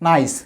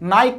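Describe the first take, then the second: First: The word ends with an s sound. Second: The word ends with a k sound. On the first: The speaker calls it right. "এই সি এর উচ্চারণ সি এর মতো বা সয়ের মতোই হবে" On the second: The speaker calls it wrong. "বাচ্চারা যেন ভুলে এটাকে আবার কি না বলে নাইক না বলে"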